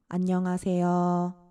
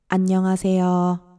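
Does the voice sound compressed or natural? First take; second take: natural; compressed. First: The voice sounds natural, quieter and unprocessed. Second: The voice sounds louder and squashed by compression. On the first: "없을 때는 이런 느낌이에요" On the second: "소리가 커진 것뿐만 아니라 눌려서 들리는"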